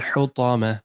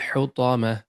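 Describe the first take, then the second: The two takes are said the same way.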